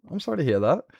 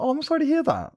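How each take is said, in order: First: A hint of Stitch; slightly raised alien voice; lighter Stitch voice. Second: Very high rasping alien; squeaky little alien creature; Stitch voice. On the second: Acted. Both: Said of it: "I need to fix my Stitch".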